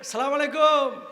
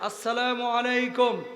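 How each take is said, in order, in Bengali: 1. শুভেচ্ছাটি শুধু salam দিয়ে শুরু হয়। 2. শুভেচ্ছাটি পূর্ণ assalamu দিয়ে শুরু হয়। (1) "এগুলো সালামের নামে ফাইজলামি" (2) "বলেন আসসালামু আলাইকুম"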